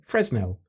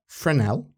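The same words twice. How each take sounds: First: The S in the middle is pronounced. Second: The S in the middle is silent.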